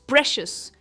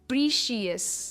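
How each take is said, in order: First: The first vowel is a short 'e' sound. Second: The first vowel is a long 'ee' sound. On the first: The speaker calls it right. "It's प्रेशियस and not प्रीशियस" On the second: The speaker calls it wrong. "ये प्रीशियस नहीं है"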